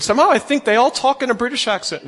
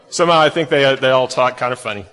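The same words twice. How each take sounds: First: A failed, mock British accent, pitched higher; bad British accent. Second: Said in the usual way. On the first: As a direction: attempt a British accent and miss badly. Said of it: "That was not a British accent, y'all. That was horrible". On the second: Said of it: "That was horrible".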